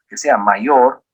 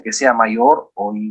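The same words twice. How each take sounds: First: "que sea mayor" said slowly, each word set apart; slow down and restate "que sea mayor" carefully; slow correction. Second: Said in the usual way. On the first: Shown as a demonstration. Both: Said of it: "bueno, que sea mayor".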